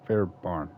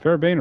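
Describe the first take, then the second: First: Fairbairn with the second syllable like "barn"; pronunciation with BARN. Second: Fairbairn with the second syllable rhyming with "rain"; pronunciation with BANE. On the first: Gamer trying the other reading of the kicker's name, Fairbairn said as "fair-barn". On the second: Gamer unsure of the kicker's name, Fairbairn said as "fair-bayn". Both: Shown as a demonstration. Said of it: "Is it Fairbairn or".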